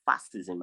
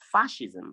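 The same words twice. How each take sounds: First: Fascism with a plain s, /æsɪzəm/, no sh; wrong fascism. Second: Fascism with a clear sh sound, /fæʃɪzəm/; correct fascism. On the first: Teacher to class, wrong fascism with s. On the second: Teacher to class, fascism said with sh. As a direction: say fascism with sh in the middle. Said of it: "I said fascism". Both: Shown as a demonstration.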